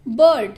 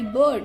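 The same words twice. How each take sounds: First: बर्ड punched out loud with a clear ur vowel; loud classroom demo of बर्ड; stressed er sound. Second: Said in the usual way. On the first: Shown as a demonstration. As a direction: hit बर्ड hard to show the ur sound. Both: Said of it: "sound ये अर का है".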